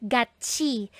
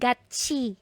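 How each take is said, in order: No difference in how they are said.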